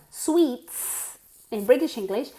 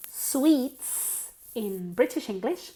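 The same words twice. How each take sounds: The two takes are said the same way.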